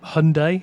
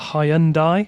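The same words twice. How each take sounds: First: The word has an American pronunciation. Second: The word has a non-American pronunciation.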